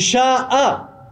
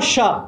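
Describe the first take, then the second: First: The vowel is long and drawn out. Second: The vowel is short and clipped. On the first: The speaker calls it right. "c'est Sha'a" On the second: The speaker calls it wrong. "c'est pas Sha"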